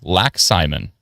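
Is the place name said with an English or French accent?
English. It is said with a plain English accent.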